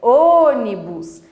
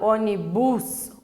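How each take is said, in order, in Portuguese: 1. A tônica está na primeira sílaba. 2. A tônica está na última sílaba.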